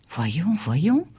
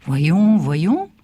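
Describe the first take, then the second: First: Voyons voyons at normal level, gently rising; repeating, bemused. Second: Voyons said loud then trailing off; recovering from surprise. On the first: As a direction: mull it over half to himself. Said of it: "répétait-il". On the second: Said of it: "dit-il enfin". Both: Acted.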